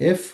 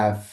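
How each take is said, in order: First: Said in the usual way. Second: এফ with open "a" and a trailing vowel, "affe"; Portuguese letter name. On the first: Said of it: "আমরা বলি এফ". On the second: Shown as a demonstration. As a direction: say এফ as Portuguese "effe", two beats. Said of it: "ওরা বলে".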